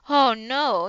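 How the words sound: The voice is low and deep. The speaker calls it right. "it's a deep voice"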